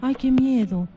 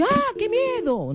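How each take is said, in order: First: Said in the usual way. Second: Far higher, slow, startled cry of fear; high scared exclamation; frightened. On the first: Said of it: "no va a decir". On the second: Shown as a demonstration. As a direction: gasp it out as if truly scared. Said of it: "Usted va a decir".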